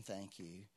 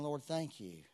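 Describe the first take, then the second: First: Low, much softer aside; silently thought thanks. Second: Said in the usual way. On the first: Shown as a demonstration. Preacher showing thanks only thought, low and hushed. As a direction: say it as if only thinking it. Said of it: "Not just thinking". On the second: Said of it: "but actually saying".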